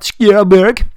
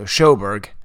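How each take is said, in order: First: The name is said in its authentic original way. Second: The name is said in a plain, anglicized way. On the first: This is not how the person says her own name. The speaker calls it wrong. "not Schoberg" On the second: This is how the person says her own name. The speaker calls it right. "she didn't pronounce it like super authentic"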